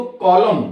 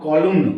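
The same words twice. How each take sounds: First: कॉलम ending cleanly on M; silent N. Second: कॉलम wrongly ending in "-mn"; sounded final N. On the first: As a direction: say कॉलम with no N after the M. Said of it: "क्या पढ़ेंगे इसको". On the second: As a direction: say कॉलम with an N released after the M. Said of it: "not कॉलम". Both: Shown as a demonstration.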